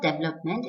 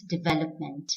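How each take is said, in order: First: Development as DEV-lup-ment; development squeezed to three syllables; wrong pronunciation. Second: Development as di-VEL-up-ment; development in four syllables; correct pronunciation. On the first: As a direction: stress the first syllable of development. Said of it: "It's not development". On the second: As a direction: stress the second syllable of development. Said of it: "it's development". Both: Shown as a demonstration.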